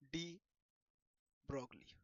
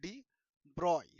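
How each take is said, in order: First: The surname is said with a clear g-l sound. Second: The surname is said as broy, without g-l. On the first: This is the form usually used here. "সাধারণত আমরা ব্রগলি বলবো" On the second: This is the form many others use. "অনেকে এটাকে ডি ব্রয় বলে"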